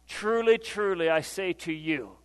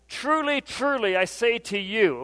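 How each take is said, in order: First: Solemn proclamation. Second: Raised, forceful scripture quote; emphatic proclamation. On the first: Preacher setting up Jesus' hard saying, solemn. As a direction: let it settle gravely before the revelation. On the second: Jesus addressing the disputing crowd, emphatic proclamation. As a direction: proclaim it to make them listen. Preacher voices Jesus calling for attention. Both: Acted.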